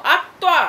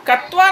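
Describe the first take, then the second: First: अक्त्वा with the opening अ stressed; correct pronunciation. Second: कत्वा without the opening अ, said as the error; wrong form. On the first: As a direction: firmly say अक्त्वा. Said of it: "बार बार मैं बोलती हूँ". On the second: Teacher repeating a student's mistake, mildly exasperated. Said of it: "कत्वा नहीं". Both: Shown as a demonstration.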